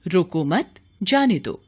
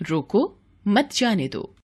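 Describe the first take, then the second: First: रोको मत run together, a break, then जाने दो; pause after मत. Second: रोको alone, a break, then मत जाने दो together; pause after रोको. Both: Shown as a demonstration. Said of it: "अल्प विराम को आगे पीछे".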